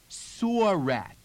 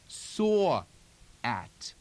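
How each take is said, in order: First: The r is sounded and glides into the next word. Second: The r is dropped, with space between words.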